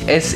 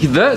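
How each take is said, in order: First: The word begins with an s sound. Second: The word begins with a th sound. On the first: The speaker calls it right. "sondern mit Absicht SE" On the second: The speaker calls it wrong. "nicht The"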